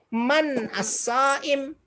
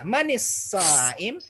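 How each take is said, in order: First: The first word ends without a vowel before the next. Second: The first word links to the next with an i vowel. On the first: This is the original form. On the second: This is the joined form.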